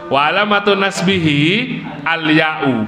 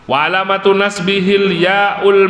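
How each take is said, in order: First: Nasbihi is kept separate from the next word. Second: Nasbihi runs straight into the next word. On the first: The speaker calls it right. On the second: The speaker calls it wrong. "ini bukan begitu, bukan begitu sebenarnya"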